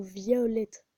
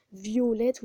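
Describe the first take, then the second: First: "Violette" drawn out, open o as in "vol". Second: "Violette" pronounced vjolɛt, the o round and closed. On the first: Streamer giving the second, uglier pronunciation, open o, slowly. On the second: Streamer listing the two ways to say Violette, closed o. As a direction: say "Violette" with a closed o, like "vee-yo-lette". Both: Shown as a demonstration. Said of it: "plusieurs prononciations de O".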